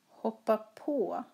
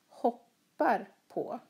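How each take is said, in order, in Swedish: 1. Betoningen faller på partikeln på. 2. Betoningen faller på verbet hoppar. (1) "Här hoppar hon på tåget. Hon följer med tåget" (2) "Här hoppar han på mattan. Mattan är under hans fötter"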